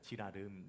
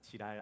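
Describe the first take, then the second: First: The name is said with three full syllables. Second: The name is squeezed into two syllables. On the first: The speaker calls it right. "발음을 주의하셔야 됩니다" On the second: The speaker calls it wrong. "지랄 아니고"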